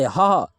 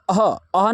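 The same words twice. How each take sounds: First: ह said cleanly with no vowel before it; correct reading. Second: अह said with a vowel before the ह; अह, with a leading vowel; wrong reading. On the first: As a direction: give ह alone, the right way. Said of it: "इसको ह, ह पढ़ेंगे". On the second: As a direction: start अह with a short a sound, the wrong way. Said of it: "अह, अह नहीं पढ़ते". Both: Shown as a demonstration.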